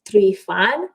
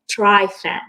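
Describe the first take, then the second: First: The surname is said with a Romanian pronunciation. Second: The surname is said with an English pronunciation. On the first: This is how the owner of the name says it. "because I'm Romanian, I pronounce it Treefan" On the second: This is how people around her say it. "they would pronounce my last name as Treefan"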